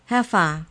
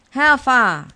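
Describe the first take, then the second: First: Firm, louder demand, not booming. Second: Big, high, loud booming demand. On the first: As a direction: press the bird for an answer. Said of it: "he demanded". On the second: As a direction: boom it at the bird in the cage. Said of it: "he boomed". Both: A narrator's reading.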